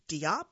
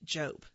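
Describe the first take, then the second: First: The name does not rhyme with hope. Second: The name rhymes with hope. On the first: The speaker calls it wrong. "people would take it upon themselves to correct me" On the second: The speaker calls it right. "it's pronounced Jope, as in rhymes with hope"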